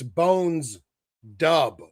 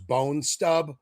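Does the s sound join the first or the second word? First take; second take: first word; second word. First: The s sound ends the first word. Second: The s sound begins the second word. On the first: The speaker calls it right. "but it's Bones Dub" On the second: The speaker calls it wrong. "I thought his name was Bone Stub"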